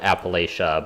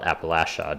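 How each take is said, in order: First: It is said the outsider's way. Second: It is said the local way. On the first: This is how people from elsewhere say it. "I've always called it" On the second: This is how people who live there say it. "people who live there call it"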